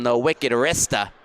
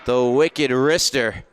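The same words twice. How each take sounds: First: It is said in a Boston accent. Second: It is said in the speaker's plain accent.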